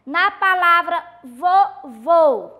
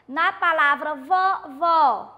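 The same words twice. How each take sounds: First: Vovô said slowly, with a closed final ô; closed vowel demo. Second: Vovó said slowly, with an open final ó; open vowel demo. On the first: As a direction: stretch out vovô, closing the last o. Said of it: "indica que o som destas vogais é fechado". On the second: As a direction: stretch out vovó, opening the last o wide. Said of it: "ele é um acento mais aberto". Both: Shown as a demonstration.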